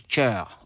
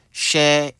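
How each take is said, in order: First: "cher" as English "chair", with a tch onset; English pronunciation. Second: "cher" drawn out with a French sh; French pronunciation. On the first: Teacher contrasts two words spelled alike, English pronunciation. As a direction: hit a hard ch at the start of "cher", slowly. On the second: Teacher contrasts two words spelled alike, French pronunciation. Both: Shown as a demonstration. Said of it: "Les deux s'écrivent de la même manière".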